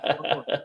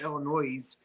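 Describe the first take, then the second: First: The final S sound is silent. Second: The final S sound is pronounced. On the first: The speaker calls it right. "It's like Illinois. ... It's silent" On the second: The speaker calls it wrong. "You don't say Illinois"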